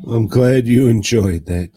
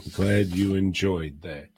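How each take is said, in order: First: Louder, pointed "I'm glad you enjoyed that"; half-teasing loud congratulations; loud mock praise. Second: Said in the usual way. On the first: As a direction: call it out loudly to Joe. Repeats line louder to Joe.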